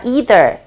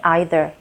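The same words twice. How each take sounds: First: It is said in an American accent. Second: It is said in a British accent. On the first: "미국 사람들은 보통 이렇게 발음을 합니다" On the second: "영국 사람들 혹은 호주 사람들은 either 대신에 either 이런 발음을 합니다"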